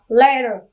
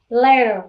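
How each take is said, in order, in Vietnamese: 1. Chữ t ở giữa nghe như d nhẹ. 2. Chữ t ở giữa nghe như d nhẹ.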